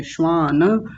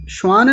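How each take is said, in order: First: श्वान as shvaa-na, long aa; full final vowel. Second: श्वान as one quick syllable, shvaan; clipped final vowel. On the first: Teacher correcting the class, श्वान ending in na. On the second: Teacher showing what not to say, श्वान without final a. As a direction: close श्वान on n. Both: Shown as a demonstration. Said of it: "श्वान नहीं बोलेंगे".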